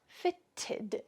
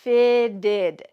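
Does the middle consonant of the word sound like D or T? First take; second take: T; D. First: The middle consonant is a crisp T sound. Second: The middle consonant sounds like a soft D. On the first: The speaker calls it wrong. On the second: The speaker calls it right. "those T's are gonna sound like D's in American English"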